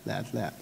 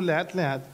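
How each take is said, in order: First: Fading slowly. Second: Said in the usual way. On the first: Shown as a demonstration. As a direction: lower and much softer, dying away.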